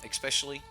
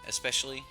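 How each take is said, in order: The two takes are said the same way.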